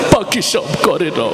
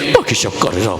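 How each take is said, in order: First: It is recited in a crying, tearful voice. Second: It is recited in a tough, aggressive voice. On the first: The reciter is overly emotional. "ও আবার কানতে কানতে বলতেছে" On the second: The reciter is ready to fight. "কথায় কথায় খালি মারামারি করে"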